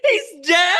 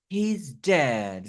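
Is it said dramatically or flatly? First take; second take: dramatically; flatly. First: It is said with exaggerated dramatic shock. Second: It is said flatly, without much feeling.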